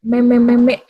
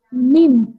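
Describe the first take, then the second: First: "Meme-meme" said meh-meh; how people wrongly say meme. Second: "Meme" said meem, one syllable; correct meme. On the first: Teacher imitates the wrong "Meme-meme" students use. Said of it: "orang biasa bilang meme". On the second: Teacher gives students the right "Meme", clear. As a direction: rhymes with team. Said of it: "Padahal pengucapannya apa?". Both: Shown as a demonstration.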